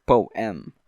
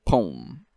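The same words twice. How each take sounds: First: "poem" pronounced poh-EM, both vowels sounded; "poem" in two distinct beats; two-syllable poem. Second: "poem" pronounced pome, like home; "poem" as pome, no second vowel; one-syllable poem. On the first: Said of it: "It's not". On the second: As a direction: squash "poem" into a single syllable. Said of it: "it would be P O M E". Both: Shown as a demonstration.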